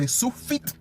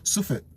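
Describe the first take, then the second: First: 'sufit' with the punch on FIT; trying 'sufit' with a strong final syllable; stress on second syllable. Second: 'sufit' with the weight on SU; trying 'sufit' with a light, falling ending; stress on first syllable. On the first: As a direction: hit the end of sufit, su-FIT. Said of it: "Do you say sufit or". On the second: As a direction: lean on the start of sufit, SU-fit. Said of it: "or you say sufit". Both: Shown as a demonstration.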